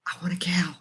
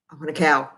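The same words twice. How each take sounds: First: Soft conspiratorial whisper; sneaky whisper so her husband won't hear; whispered wish. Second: Said in the usual way. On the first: Real, not acted. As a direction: whisper it like a secret plea. Husband says no, she whispers.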